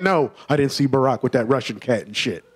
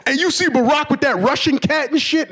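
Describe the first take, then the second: First: Lower, softer deadpan answer; flat annoyed reply. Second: Much higher mock excited question; eager friend. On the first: Retold or imitated. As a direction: shut the question down drily. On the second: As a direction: gossip like he's your pal.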